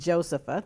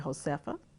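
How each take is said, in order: First: The name is said without a Spanish sound. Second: The name is said with a Spanish sound. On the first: This is the bearer's own pronunciation. "the way it's I pronounce it" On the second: Others read the spelling as a Spanish name. "because it has that Spanish feel"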